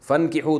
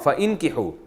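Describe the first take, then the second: First: The vowel is silent and sounds run together. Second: The vowel after fa is pronounced separately. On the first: This is how it is actually read. "अलिफ साइलेंट हो गया, फ़न की हो मिला के पढ़ा जाता है" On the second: This is the original underlying form. "असल में था फ़इन की हो"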